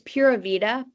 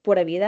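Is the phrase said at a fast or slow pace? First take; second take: slow; fast. First: The phrase is said at a careful, slower pace. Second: The phrase is said quickly, run together.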